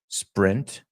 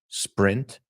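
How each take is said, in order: No difference in how they are said.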